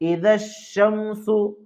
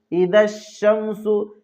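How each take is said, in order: The two takes are said the same way.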